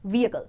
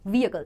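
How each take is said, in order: First: The h sound is slight and blended in. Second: The h sound is slight and blended in.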